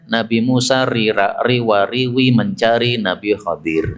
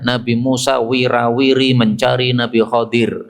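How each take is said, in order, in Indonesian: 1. Kata itu diucapkan dengan suku kata riwa di awal. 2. Kata itu diucapkan dengan suku kata wira di awal. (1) "Itu kalau pas di Jawa Timur" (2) "kalau mengajarkan Quran di dalam bahasa Jawa Tengah, beliau mengatakan wirawiri"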